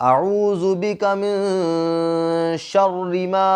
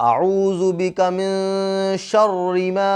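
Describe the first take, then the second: Both takes have the same delivery.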